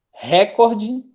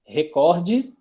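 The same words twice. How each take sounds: First: Recorde stressed on re, RE-cor-de; stress option. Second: Recorde stressed on cor with open o, re-CÓR-de; stress option. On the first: Teacher to class, giving the first option: recorde as RE-cor-de. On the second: Teacher to class, giving the second option: recorde as re-CÓR-de. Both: Shown as a demonstration. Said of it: "ou recordê".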